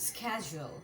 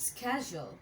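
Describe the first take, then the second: No difference in how they are said.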